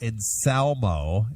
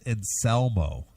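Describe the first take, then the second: First: The middle syllable has an A-like vowel. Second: The middle syllable has a clear E vowel. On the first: The speaker calls it wrong. "Not Anselmo" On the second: The speaker calls it right. "we want to put more emphasis on the E"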